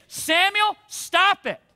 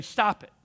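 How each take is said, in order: First: A firm call of Samuel, then stop it; a mild stern God calling Samuel to stop; God's firm rebuke. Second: Said in the usual way. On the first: Acted. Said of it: "I think it would be like this". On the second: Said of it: "turn to your friend next to you and say".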